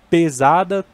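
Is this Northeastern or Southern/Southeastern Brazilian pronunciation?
Southern/Southeastern. It is said with a Southern/Southeastern Brazilian pronunciation. "Sul e Sudeste é mais comum"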